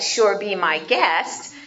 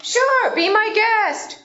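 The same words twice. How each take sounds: First: Sarcastic. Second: Bright, high welcoming "Sure, be my guest"; friendly permission. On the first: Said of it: "in a sarcastic way". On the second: Teaching a class, a warm welcoming "be my guest". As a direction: grant permission gladly. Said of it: "What do we usually say?". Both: Shown as a demonstration.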